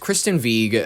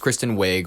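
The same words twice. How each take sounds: First: The surname has a Norwegian-style pronunciation. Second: The surname has the common English pronunciation. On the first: It follows the name's original pronunciation. "which is how you're supposed to pronounce it, according to the Norwegian whatever" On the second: It follows the way most people say it. "But I understand people go, oh, you're being a douche"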